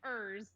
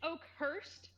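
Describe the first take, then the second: First: The second syllable is said as 'ers'. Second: The second syllable is said as 'hurst'. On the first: The speaker calls it wrong. "I thought it was" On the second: The speaker calls it right. "it's it's Oakhurst"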